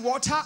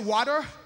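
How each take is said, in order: First: It is said in a Ugandan accent. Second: It is said in an American accent.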